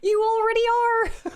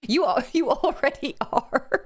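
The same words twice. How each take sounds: First: Squealing laugh. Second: Slow, higher, laughing it out; amused laugh. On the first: Streamer repeats reply to Grandma Fish, squealing with laughter. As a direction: squeal it out, delighted. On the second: Streamer answers Grandma Fish's chat, laughing. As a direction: say it through a giggle. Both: Real, not acted.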